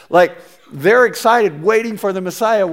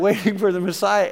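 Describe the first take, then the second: First: Higher, louder, bubbling with anticipation; rising thrilled tone; eager excitement. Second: Said through a laugh; amused echo; laughing repeat. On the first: Retold or imitated. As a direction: sell the crowd's excitement. Crowd eager for Messiah. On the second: Real, not acted. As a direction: chuckle at the irony as you repeat it.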